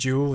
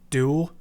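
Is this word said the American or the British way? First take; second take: British; American. First: It starts with a j-like sound. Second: It starts with a plain d sound. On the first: The speaker calls it wrong. "rather than" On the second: The speaker calls it right. "I really prefer the American way of saying D"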